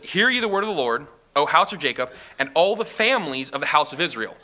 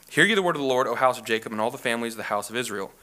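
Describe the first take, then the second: First: The word families is given strong emphasis. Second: It is read evenly with no special emphasis.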